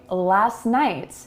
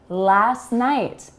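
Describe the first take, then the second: First: The T is dropped and the words link together. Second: The T is dropped and the words link together.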